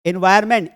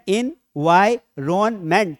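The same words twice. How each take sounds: First: Said in the usual way. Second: environment very slowly, in four separate syllables. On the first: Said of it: "word बड़े हो तो टुकड़े करके पढ़". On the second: Shown as a demonstration. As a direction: break environment into four parts, pausing after each. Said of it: "चार syllable हैं". (Environment को चार टुकड़ों में, धीरे-धीरे बोलें)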